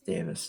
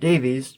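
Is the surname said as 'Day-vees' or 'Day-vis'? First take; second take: Day-vis; Day-vees. First: The name ends with a short 'vis' sound. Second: The name ends with a long 'vees' sound. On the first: This is the Welsh way. The speaker calls it right. "it's Davis because he's Welsh" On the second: This is how it looks from the spelling. The speaker calls it wrong. "the very American way to pronounce his last name"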